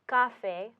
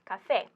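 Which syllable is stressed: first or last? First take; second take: first; last. First: The stress is on the first syllable. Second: The stress is on the last syllable. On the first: The speaker calls it wrong. "the normal pronunciation would be café, but it's not pronounced café" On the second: The speaker calls it right. "it's pronounced café"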